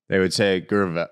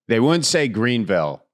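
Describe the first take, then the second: First: It is said imitating the local Greenville accent. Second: It is said in the speaker's own Midwestern accent.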